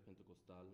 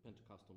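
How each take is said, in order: First: Pentecostal said the Spanish way, with an o in the middle; Spanish pronunciation. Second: Said in the usual way. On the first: Shown as a demonstration. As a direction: Pentecostal said in Spanish, stress on the last syllable. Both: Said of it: "or the Pentecostal Mission Church".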